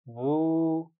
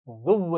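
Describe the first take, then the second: First: The vowel is drawn out long and smooth. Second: The vowel ends in a hard, doubled w. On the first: The speaker calls it right. "लंबा करके खींच कर पढ़ेंगे" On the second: The speaker calls it wrong. "ज़ुव्व नहीं पढ़ेंगे"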